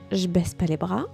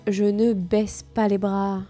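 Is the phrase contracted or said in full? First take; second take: contracted; full. First: The words are shortened and run together. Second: Each sound is pronounced in full.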